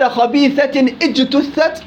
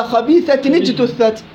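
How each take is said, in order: First: خبيثة اجتثت with the hamza of اجتثت spoken and the words kept apart; deliberately wrong disconnected reading. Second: خبيثة نجتثت with the tanween nun gliding into نجتثت; right recitation of the linked form; correct linked reading. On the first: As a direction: say اجتثت starting on its hamza, no link. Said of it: "هل بتقول أنت خبيثة اجتثت ولا". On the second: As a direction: join the words through the nun, نجتثت. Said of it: "الثانية". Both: Shown as a demonstration.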